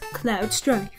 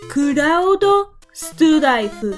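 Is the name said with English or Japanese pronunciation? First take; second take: English; Japanese. First: The name is said as the English word cloud. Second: The name is said in Japanese syllables, Kuraudo. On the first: "just pronounce using the borrowed words" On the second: "which if read directly is Kuraudo Strife"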